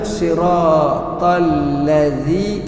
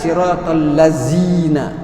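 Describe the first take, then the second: First: The middle consonant is a soft 'th' sound. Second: The middle consonant is a 'z' sound. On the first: The speaker calls it right. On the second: The speaker calls it wrong. "Atau zai"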